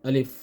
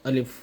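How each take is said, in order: The two takes are said the same way.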